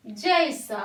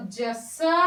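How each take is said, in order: First: जैसा said with a clear "jai"; correct ai vowel. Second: जैसा said slowly as "jəsa"; wrong short vowel, slow. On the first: Teacher giving the right जैसा to the class. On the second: Teacher slowly sounding the wrong जैसा. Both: Shown as a demonstration.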